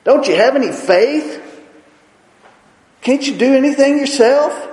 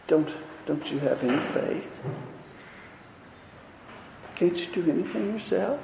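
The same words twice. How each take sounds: First: Louder, higher scolding rebuke; stern scolding teacher voice. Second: Much softer, meek and apologetic; apologetic soft voice, afraid to offend; meek and timid. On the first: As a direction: rebuke them sharply for their lack of faith. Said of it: "I think he scolded them". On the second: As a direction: ask it timidly, almost under your breath. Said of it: "Do you think he said that?". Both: Retold or imitated.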